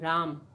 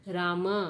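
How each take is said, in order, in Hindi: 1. शब्द का अंत अंतिम व्यंजन पर होता है। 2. शब्द का अंत एक छोटे स्वर से होता है। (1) "हम राम ऐसा ही उच्चारण करने लगे हैं" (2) "अब हम राम ऐसा उच्चारण कदापि नहीं करते हैं"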